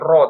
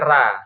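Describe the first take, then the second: First: The r is heavy, with a rounded o-like vowel. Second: The r is light, with a clear a vowel. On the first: This is the reading of the speaker's own tradition. "Jadi ro-nya tebal ya" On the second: This is the reading of another tradition. "ada fathahnya dibuat tipis"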